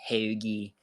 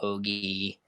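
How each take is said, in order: First: It is said in a local Delco accent. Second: It is said in a general American accent. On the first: She is around family she grew up with. "she'll slip into the uh, the less common" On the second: She is speaking the way she usually does. "most of the time it's"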